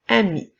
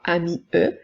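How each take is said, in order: First: The word ends on the I, no extra sound. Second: The final E is sounded after the word. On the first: The speaker calls it right. "mais bien ami" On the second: The speaker calls it wrong. "nous ne dirons pas ami E"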